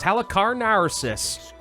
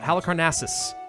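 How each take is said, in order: First: An extra R sound is added in the word. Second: The word is said with no extra R. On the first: The speaker calls it wrong. "I want to add an R here that doesn't exist" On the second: The speaker calls it right. "There we go"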